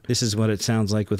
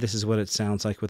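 First: The distant voice has medium compression applied. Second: The distant voice has no compression applied. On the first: "with medium compression, 6 inches off of the microphone" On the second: "with the compressor off"

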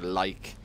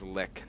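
First: Long eye vowel, ending in a k sound. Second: Short i vowel, ending in a k sound. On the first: The speaker calls it wrong. "or Like" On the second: The speaker calls it right. "It is Lick"

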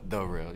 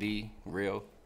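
First: The word 'the' is pronounced loosely and reduced. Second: The word 'the' is pronounced clearly and fully. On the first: The speaker calls it wrong. "or The Real" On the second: The speaker calls it right. "I enunciate"

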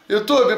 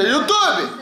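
First: It is said softly in a gentle, pleading tone. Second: It is shouted loudly in an angry tone. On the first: The speaker calls it right. "tem que falar com carinho" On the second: The speaker calls it wrong. "se eu falar assim meio com raiva"

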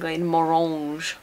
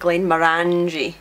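First: The name is said with a French-sounding accent. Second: The ending does not sound like 'orangy'. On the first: "pronounced a bit Frenchly" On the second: "people often pronounce it"

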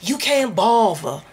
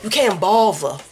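First: It is said in a plain accent. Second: It is said in a DC accent.

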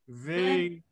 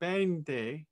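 First: The word begins with a V sound. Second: The word begins with a B sound. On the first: The speaker calls it right. "It has a V sound, not a B sound" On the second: The speaker calls it wrong. "You sang for me "Vente,""

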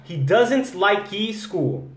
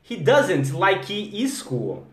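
The two takes are said the same way.

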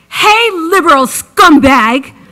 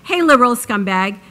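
First: It is read with expressive, hostile intonation. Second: It is read flatly, without expressive intonation.

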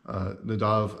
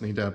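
First: The name is said in a Hebrew style. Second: The name is said in an English style.

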